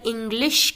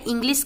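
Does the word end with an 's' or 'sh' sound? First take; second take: sh; s. First: The word ends with a 'sh' sound. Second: The word ends with an 's' sound. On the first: The speaker calls it right. "Properly अगर इंग्लिश कहती हूँ तो आपको समझ आ रहा है कि श है" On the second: The speaker calls it wrong. "अगर इंग्लिश कहूँगी तो आपको स सुनाई देगा"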